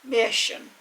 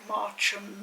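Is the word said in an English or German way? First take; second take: German; English. First: The word is said with a German pronunciation. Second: The word is said with an English pronunciation. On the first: "the way they are pronounced in their original language" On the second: "people will just call it something like Marcham"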